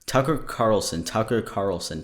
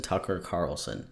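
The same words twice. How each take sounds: First: Tongue twister repeat. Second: "Tucker Carlson" trailing off softer; last of three tries, dropping quieter; tongue twister, fading. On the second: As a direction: let the third "Tucker Carlson" die away. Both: Shown as a demonstration. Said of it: "Tucker Carlson three times fast".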